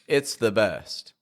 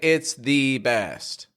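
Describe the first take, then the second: First: The vowel in 'the' is a weak schwa. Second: The vowel in 'the' is full and strong. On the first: The speaker calls it right. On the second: The speaker calls it wrong.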